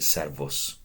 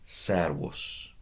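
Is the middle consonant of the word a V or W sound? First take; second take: V; W. First: The middle consonant sounds like a V. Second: The middle consonant sounds like a W. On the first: The speaker calls it wrong. "It's not the end of the world if you pronounced it servus" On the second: The speaker calls it right. "Remember what I said about the V? That was awis"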